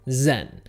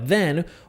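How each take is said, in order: First: It begins with a z sound. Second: It begins with a voiced th sound. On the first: "we're going to change it to" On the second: "the th sound with words like there or then"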